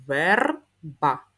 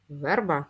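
First: Syllable reading. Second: Said in the usual way. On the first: Shown as a demonstration. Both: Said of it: "прочитаємо їх".

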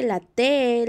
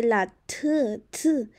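First: Said in the usual way. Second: T as a letter sound, tuh; T said as a short burst, repeated; accented T. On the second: Shown as a demonstration. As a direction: demonstrate T as tuh, not te. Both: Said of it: "este tiene un acento".

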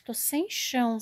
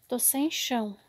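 First: Said in the usual way. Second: Devastated whisper. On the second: Real, not acted. Looking at the fallen shelves, whispering "Tô sem chão". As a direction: breathe "Tô sem chão" out, crushed. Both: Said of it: "tô até sem chão".

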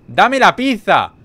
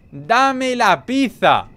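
First: Slow, louder shout with every word leaned on; demanding shout. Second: Very slow, higher shout with "pizza" stretched at the end; drawn-out shout. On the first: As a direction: bark the order out slowly. Demanding the pizza from the NPC. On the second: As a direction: drag out "¡Dame la pizza!" like a howl. Repeats the demand even slower. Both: Pretend.

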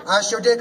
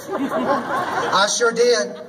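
First: Said in the usual way. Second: Drawn out slowly through a laugh; slow laughing admission. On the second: Real, not acted. Confessing to the crowd she deleted it, laughing. Admits taking down her post.

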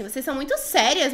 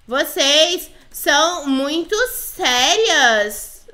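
First: Said in the usual way. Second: "Vocês são muito sérias" stretched out, very slow word by word; slow dictation. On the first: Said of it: "Falei assim". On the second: Pretend. Player types "Vocês são muito sérias" to the girls, dictating very slowly. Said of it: "Falei assim, vocês são muito sérias".

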